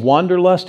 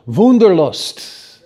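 First: Said in the usual way. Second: Slow, emphatic German "Wunderlust"; German pronunciation. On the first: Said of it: "Listen to it in the language". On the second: Shown as a demonstration. Preacher shows where wanderlust comes from, German accent. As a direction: say "Wunderlust" the German way, with a V sound and drawn out. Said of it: "in the language it comes from".

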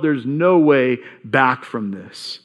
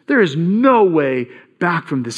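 First: Despairing, slow. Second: Said in the usual way. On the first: Retold or imitated. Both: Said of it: "the feeling that he would have felt".

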